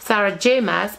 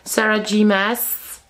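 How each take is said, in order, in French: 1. La lettre J se prononce à l'anglaise. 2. La lettre J se prononce à la française. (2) "je prononce mal les lettres"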